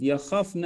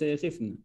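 First: يخفن said as ya-KHAF-na; short a after the kh in يخفن; yakhafna with a. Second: يخفن said as ya-KHIF-na; short i after the kh in يخفن; yakhifna, wrong vowel. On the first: Teacher models the present form, يخفن as yakhafna. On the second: Teacher cites the form to avoid, يخفن as yakhifna. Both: Shown as a demonstration. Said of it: "ليس يخفن".

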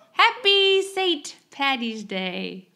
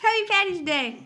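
First: Slow attempt at an Irish accent; weak Irish accent, drawn out. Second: Said in the usual way. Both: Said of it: "I'm trying to say it with an Irish accent".

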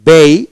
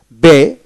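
First: বেই as a gliding "bei"; British pronunciation. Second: বে on a single pure e; American pronunciation. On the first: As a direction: glide from e to i in বেই. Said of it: "British উচ্চারণ". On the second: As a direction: say বে without any closing glide. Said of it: "American". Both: Shown as a demonstration.

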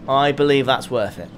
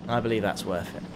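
First: Said in the usual way. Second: Much softer, lower repeat; quiet aside. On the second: Real, not acted. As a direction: say it under your breath, low.

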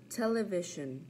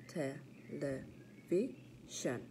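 First: Said in the usual way. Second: Television slowly split into te-le-vi-sion, softer; syllable by syllable. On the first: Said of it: "practice our counting syllables". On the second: Shown as a demonstration. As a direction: count out four slow beats in Television. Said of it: "Four syllables".

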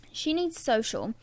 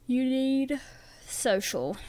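First: Said in the usual way. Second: Talking through a yawn; words stretched by a yawn. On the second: Real, not acted. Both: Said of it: "Sorry, I was yawning".

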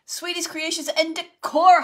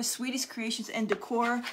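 First: High and loud, the name called out with delight; thrilled shout-out to a friend who just joined; excited shout-out. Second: Said in the usual way. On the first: Real, not acted. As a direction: call the friend's name out happily. Greets a friend on the live.

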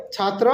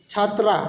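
First: "ছাত্র" ending in a short rounded vowel; short final vowel on "ছাত্র", chhaatro; masculine Nepali form. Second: "ছাত্রা" ending in open "aa"; chhaat-raa, open final vowel on "ছাত্রা"; feminine Nepali form. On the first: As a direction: keep the end of "ছাত্র" short, no "aa". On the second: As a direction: open up the last syllable of "ছাত্রা". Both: Shown as a demonstration. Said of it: "ওইটাতে একটু different আছে".

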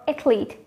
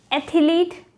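First: "athlete" as ATH-leet; no vowel between th and l in "athlete"; two-syllable pronunciation. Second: "Athlete" as ATH-uh-leet, pitched up; three-syllable mispronunciation. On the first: Teacher offering viewers the second option, two-syllable pronunciation. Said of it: "just with two syllables". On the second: Teacher offering viewers the first option, three-syllable mispronunciation. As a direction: slip an extra vowel into "Athlete", higher. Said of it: "correct one is actually just with two syllables". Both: Shown as a demonstration.

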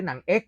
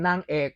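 First: หนังเอก with rising tone on หนัง; southern pronunciation. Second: Said in the usual way. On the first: Shown as a demonstration. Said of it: "เป็นนางเอก ไม่ใช่หนังเอก". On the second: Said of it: "ก็พอจะเข้าใจแล้วว่าเป็นนางเอก".

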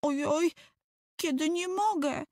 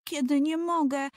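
First: Put-on much higher, wailing small boy; higher whimpering child; whining little boy. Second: Put-on higher, plaintive small boy; higher childish complaint, stretched mogę; whining little boy. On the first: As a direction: wail that you can't, falling on mogę. Tomek repeating complaint. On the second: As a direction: whine that he can't. Tomek stuck whining on branch.

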